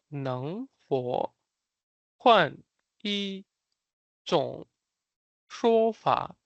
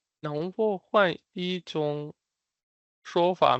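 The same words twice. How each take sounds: First: 能否, 换, 一, 种, 说法 each said apart, very slowly; word by word. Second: 能否换一种 run together slowly, then 说法 after a pause; slow joined phrase. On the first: Teacher showing learners how to say the phrase, word by word. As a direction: draw out 能否换一种说法 with a pause between words. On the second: Teacher putting the phrase back together for learners, slow and joined. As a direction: say 能否换一种说法 slowly in two chunks. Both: Shown as a demonstration.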